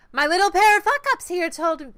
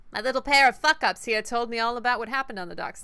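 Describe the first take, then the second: First: High, loud crime-boss voice; a rough first take at the boss's voice; first try at Kindly. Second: A hint of a New York accent; light New York gangster lilt; a little New York. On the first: Acted. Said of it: "figure out ... how Kindly's voice is". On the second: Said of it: "See, that's a little New York".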